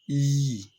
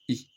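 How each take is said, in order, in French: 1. La voyelle est longue et appuyée. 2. La voyelle est courte et faible. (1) "le I long, on appuie là-dessus" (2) "le I court, on le prononce faiblement"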